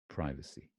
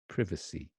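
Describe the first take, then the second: First: It is said with an American pronunciation. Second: It is said with a British pronunciation. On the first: "And then you've got the American pronunciation" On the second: "That's the um, British pronunciation"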